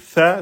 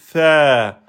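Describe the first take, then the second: First: The vowel is short, held one beat. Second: The vowel is long, held two beats. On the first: "au lieu de dire ça" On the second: "passer de un temps en deux temps"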